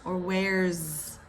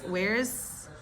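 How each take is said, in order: First: The word ends with a Z sound. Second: The word ends with an S sound.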